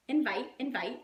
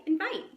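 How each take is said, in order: First: Said in the usual way. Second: "invite" lifted higher and louder with a rising end; rising emphatic invite. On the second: Shown as a demonstration. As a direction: push "invite" up and out like a call. Repeating the key word.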